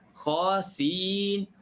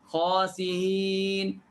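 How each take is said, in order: First: The hamzah is dropped entirely. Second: The hamzah is softened, not fully dropped. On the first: "Kalau hazaf, buang hamzah"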